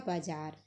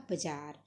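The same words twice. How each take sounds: First: बाजार with long first aa; Hindi form. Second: बाजार said as bajaar, short first vowel; Punjabi form. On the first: Teacher saying it in Hindi, long-vowelled बाजार. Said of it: "Hindi में अगर हम बोलेंगे". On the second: Teacher showing Punjabi pronunciation, बाजार with short first vowel. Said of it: "Punjabi च इसका उच्चारण आएगा". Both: Shown as a demonstration.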